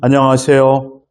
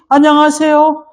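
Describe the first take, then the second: First: The greeting is spoken at a low pitch. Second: The greeting is spoken at a high pitch. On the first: It sounds too gloomy. "좀 너무 우울하잖아요" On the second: It sounds overly excited. "굉장히 업돼 있어요"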